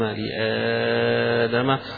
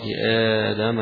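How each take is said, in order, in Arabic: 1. حرف المد يُمدّ ست حركات. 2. حرف المد يُمدّ حركتين. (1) "وستة" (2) "حركتين"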